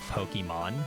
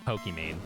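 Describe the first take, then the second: First: The name ends sounding like 'mahn'. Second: The name ends sounding like 'main'. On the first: "her name is actually supposed to be pronounced" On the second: "everyone knows the streamer"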